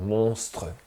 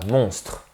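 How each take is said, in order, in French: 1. La voyelle finale est nettement prononcée. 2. La voyelle finale est muette. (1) "quand j'essaye de faire sonner les syllabes écrites que j'insiste qu'on va les entendre" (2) "quand on parle naturellement, est muet. On ne l'entend pas"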